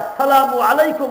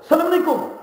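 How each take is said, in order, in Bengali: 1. অভিবাদনটি পুরোটা বলা হয়, প্রতিটি শব্দাংশ সহ। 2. অভিবাদনটি সংক্ষেপে বলা হয়, শুরুর শব্দাংশ বাদ দিয়ে। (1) "আর যদি এইভাবে বলেন" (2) "এর অর্থ হলো তোমরা মরো"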